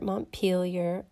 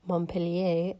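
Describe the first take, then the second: First: The name is said with an English-style pronunciation. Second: The name is said with a French-style pronunciation. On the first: The speaker calls it wrong. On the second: The speaker calls it right.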